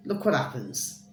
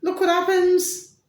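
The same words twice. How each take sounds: First: Said in the usual way. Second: High, loud exclamation; exclaimed. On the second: Shown as a demonstration. Telling viewers about chaos, high exclaiming. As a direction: sell the shock up high. Repeated for effect.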